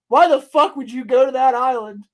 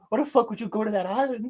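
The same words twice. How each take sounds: First: It is said in the speaker's normal voice. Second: It is said imitating the rapper's voice.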